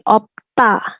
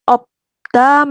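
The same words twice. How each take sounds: First: The middle consonant is a hard t sound. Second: The middle consonant is a soft d sound.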